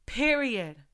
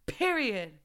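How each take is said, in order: Both takes have the same delivery.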